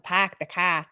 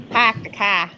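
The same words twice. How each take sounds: First: Confident Boston accent, mouth wide open; Boston vowels with the corners of the mouth up. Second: Overdone, not very good Boston accent; poor Boston accent. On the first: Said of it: "put the corners up to say Boston accent". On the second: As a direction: have a clumsy second go at Boston vowels. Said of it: "No, that's not very good". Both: Shown as a demonstration.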